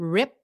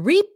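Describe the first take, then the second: First: The vowel is short. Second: The vowel is long. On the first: The speaker calls it right. "short I" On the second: The speaker calls it wrong. "Không phải là rip nhá"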